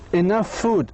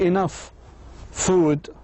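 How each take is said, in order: First: The words run together with one shared f sound. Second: There is a pause between the two words. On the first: The speaker calls it right. "الأف هذه تصبح واحدة وتصبح هذه وكأنها كلمة واحدة" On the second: The speaker calls it wrong. "ما بحكي enough food بعمل pause"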